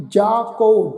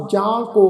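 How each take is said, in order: First: ਜਾ ਕੋ with pure oral long aa; without nasal. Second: ਜਾਂ ਕੋ with nasal ਜਾਂ; nasalised wrong reading. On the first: Teacher models the correct reading, un-nasalised ਜਾ ਕੋ. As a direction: keep ਜਾ free of nasal before ਕੋ. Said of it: "ਬਿੰਦੀ ਰਹਿਤ ਉਚਾਰਨ ਕਰਾਂਗੇ". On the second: Teacher shows what not to read, nasalised ਜਾਂ ਕੋ. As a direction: nasalise the vowel in ਜਾਂ before ਕੋ. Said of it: "ਲਗਾ ਕੇ ਉਚਾਰਨ ਨਹੀਂ ਕਰਨਾ". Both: Shown as a demonstration.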